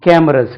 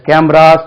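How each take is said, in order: First: "Cameras" with a short, weak last vowel; correct cameras. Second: "Cameras" as "kam-raas", long final ah; wrong cameras. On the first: Teacher models for learners, "Cameras" ending in a short "ruhz". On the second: Teacher warns learners off this form, "Cameras" as "kam-raas". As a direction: stretch the last vowel of "Cameras". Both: Shown as a demonstration. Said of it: "Cameras சொல்லக்கூடாது".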